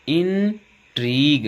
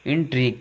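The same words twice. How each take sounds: First: Slow teacher's model of "इंट्रीग", pitched up; sounded out. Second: Said in the usual way. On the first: Shown as a demonstration. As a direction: hold both syllables of "इंट्रीग", long ई. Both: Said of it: "यहाँ पर बड़ी की ध्वनि में है".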